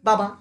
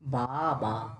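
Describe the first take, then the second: First: The word is said quickly in one go. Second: The word is said slowly with a gap. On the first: "আরে স্পিডে বল বাবা।" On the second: "slow কর। ... মাঝে একটা gap আছে কিন্তু।"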